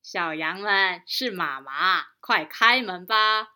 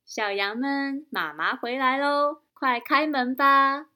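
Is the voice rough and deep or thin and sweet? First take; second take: rough deep; thin sweet. First: It is said in a rough, deep wolf voice. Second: It is said in a thin, sweet mother voice.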